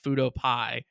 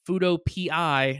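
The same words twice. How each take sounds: First: PI is said as one word, like pie. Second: PI is spelled out as two letters. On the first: The speaker calls it wrong. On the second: The speaker calls it right. "literally pronounced"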